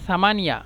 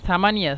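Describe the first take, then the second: No difference in how they are said.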